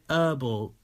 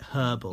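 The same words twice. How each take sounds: First: The word starts without an h sound. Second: The word starts with an audible h sound. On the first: "if you say herbal" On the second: "if you pronounce the H like the proper way"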